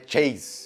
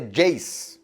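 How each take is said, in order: First: The name begins with a "ch" sound. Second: The name begins with a "j" sound. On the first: The speaker calls it wrong. "Não é Chase" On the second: The speaker calls it right. "mas é Jace"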